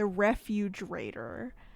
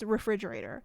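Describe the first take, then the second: First: The second syllable sounds like 'fuge'. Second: The second syllable sounds like 'fridge'. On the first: The speaker calls it wrong. "I called the refrigerator the refugerator" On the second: The speaker calls it right. "it is refrigerator"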